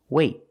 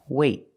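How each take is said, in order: The two takes are said the same way.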